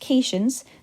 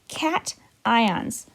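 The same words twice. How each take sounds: First: The first syllable does not sound like cat. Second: The first syllable sounds like cat. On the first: The speaker calls it wrong. "this is not pronounced cations" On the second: The speaker calls it right. "This is pronounced cations, like a kitty cat"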